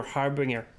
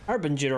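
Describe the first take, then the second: First: "harbinger" rhyming with singer, no j sound; ringer pronunciation. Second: "Harbinger" with a j sound before -er; soft-g pronunciation. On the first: Player weighing two pronunciations, ringer-style harbinger. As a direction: say "harbinger" as har-bing-er. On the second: Player weighing two pronunciations, soft-g Harbinger. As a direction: say "Harbinger" as har-bin-jer. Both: Shown as a demonstration. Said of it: "Harbinger or harbinger?".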